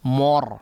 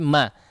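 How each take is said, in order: First: The vowel after m is thick and rounded. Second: The vowel after m is a clear open a. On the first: The speaker calls it wrong. "mimnya kemudian terpengaruh ya, ketebalan huruf ra sehingga cenderung menebal" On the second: The speaker calls it right. "La, tapi ma"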